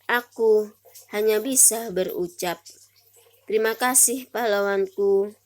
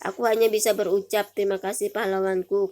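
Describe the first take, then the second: First: The line is read with short pauses between phrases. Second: The line is read straight through without pauses. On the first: "setelah diberi tanda jeda" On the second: "ini adalah sebelum diberi tanda jeda, tidak ada tanda jedanya ya"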